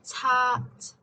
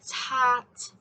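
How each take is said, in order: First: The final t is released with strong airflow. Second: The same.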